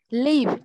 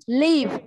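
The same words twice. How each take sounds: No difference in how they are said.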